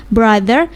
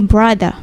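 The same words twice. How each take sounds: First: "brother" with a sounded final R; R pronounced. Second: "brother" turned into "bradah"; non-rhotic British "brother"; R dropped. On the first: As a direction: give "brother" its American R ending. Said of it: "tapi R-nya nggak di rolling". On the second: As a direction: end "brother" on an open vowel without the R. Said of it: "R-nya nggak di rolling". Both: Shown as a demonstration.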